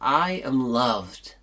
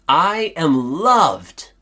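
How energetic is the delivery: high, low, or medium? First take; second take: medium; high. First: It is said with somewhat more energy. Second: It is said with the most energy. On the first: "with a little more gusto" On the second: "with even more oomph"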